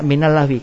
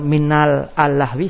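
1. Huruf 'l' langsung menyambung ke 'lahwi' tanpa suku kata tambahan. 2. Suku kata 'al' tambahan diucapkan sebelum 'lahwi'. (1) "Bacaannya minal lahwi" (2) "Kalau minal al-lahwi salah"

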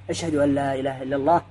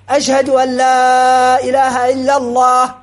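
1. تُقال بصوت أخفض وأهدأ. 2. تُقال بصوت مرتفع وأعلى. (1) "يسمع نفسه ومن حوله من هو قريب" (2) "يرفع بالشهادتين صوته"

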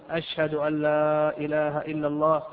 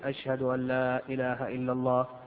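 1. تُقال بصوت مرتفع وعالٍ. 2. تُقال بصوت منخفض وهادئ. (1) "ويرفع صوته ويقول" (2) "يأتي بالشهادتين سرا"

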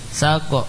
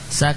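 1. Bunyi k dipantulkan dengan vokal pendek sesudahnya. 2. K dihentikan lalu dilepas dengan hembusan nafas. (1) "kahnya jangan memantul" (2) "tapi nafas"

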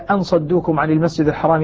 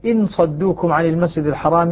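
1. تبدأ الكلمة الأولى بالحرف "أ". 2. تبدأ الكلمة الأولى بالحرف "إ".

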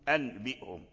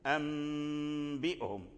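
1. يُنطق الصوت الذي قبل b كـ n. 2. يُنطق الصوت الذي قبل b كـ m. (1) "أنبئهم أنبئهم خطأ لحن" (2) "تقلب النون الساكنة والتنوين عند الباء تقلب ميما"

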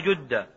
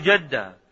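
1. الحركة الأولى هي صوت 'u' مدوّر. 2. الحركة الأولى ليست صوت 'u' مدوّر. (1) "فضم جدة" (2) "لا تقل جدة"

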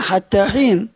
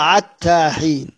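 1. الكلمة الأولى تبدأ بصوت h خفيف فيه نفس. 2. الكلمة الأولى تبدأ بصوت ain حلقي. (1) "في القرآن حتى حين" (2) "بينطقوا حرف الحاء عين"

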